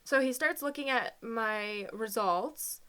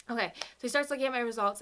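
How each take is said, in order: First: Choked up. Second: Said in the usual way. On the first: Real, not acted. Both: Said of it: "didn't realize this was gonna be so hard".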